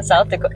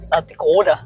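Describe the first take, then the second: First: Said in the usual way. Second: Put-on long round O in "Dakota", South Dakota accent. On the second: Imitating a friend living there, South Dakota accent. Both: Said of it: "some of the words she says".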